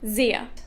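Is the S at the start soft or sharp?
soft. The first S is soft, German style.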